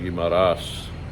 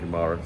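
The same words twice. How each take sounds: First: The name is said in the Filipino way. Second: The name is said in a non-Filipino way. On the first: "as the Filipinos say" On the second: "I say it that way"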